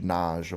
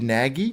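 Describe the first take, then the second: First: The name ends with a soft j sound. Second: The name ends with a hard g sound. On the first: The speaker calls it right. "they said it's like Naj" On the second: The speaker calls it wrong. "different to how I was pronouncing it"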